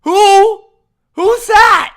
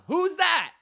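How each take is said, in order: First: Shouted, high-pitched fake confusion; mock disbelief. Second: Said in the usual way. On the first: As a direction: blurt it out as if you've never heard the name. Feigning not knowing the player.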